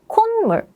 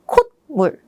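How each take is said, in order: First: The first syllable ends in an N sound. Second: The first syllable ends in a T sound. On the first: The speaker calls it right. "the 시옷 is not pronounced like a T, but rather like an N" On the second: The speaker calls it wrong. "instead of"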